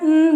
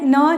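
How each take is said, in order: First: A bare consonant with the tongue raised. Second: A full syllable with a vowel after it. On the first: The speaker calls it right. "न जीभ ऊपर लेकर जाना, न बोलना है" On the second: The speaker calls it wrong. "न नहीं बोलना है"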